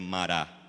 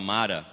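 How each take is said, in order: First: The stress is on the last syllable. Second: The stress is on the first syllable. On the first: This is the correct way to say it. The speaker calls it right. "mas é Mará" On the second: This is the habitual way people say it. The speaker calls it wrong. "Tem mania de falar Mara"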